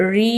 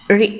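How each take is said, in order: First: రి with its vowel drawn out; long vowel. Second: రి with a brief, short vowel. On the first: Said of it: "అనే దీర్ఘ స్వరాన్ని". (రి ని దీర్ఘంగా సాగదీసి పలకడం) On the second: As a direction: say రి quickly without stretching it. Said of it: "హ్రస్వుని మాత్రమే". (రి ని హ్రస్వంగా పొట్టిగా పలకడం) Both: Shown as a demonstration.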